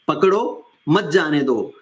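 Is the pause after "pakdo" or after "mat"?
after pakdo. The pause comes after "pakdo".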